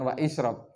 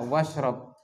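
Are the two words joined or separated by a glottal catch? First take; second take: separated; joined. First: A glottal catch separates the two words. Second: The words run together with no glottal catch. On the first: The speaker calls it wrong. "bukan wa isyrab" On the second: The speaker calls it right. "yang lebih afsah itu membacanya washrab"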